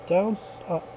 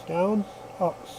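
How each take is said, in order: Both takes have the same delivery.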